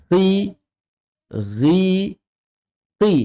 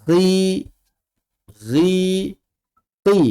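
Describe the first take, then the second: No difference in how they are said.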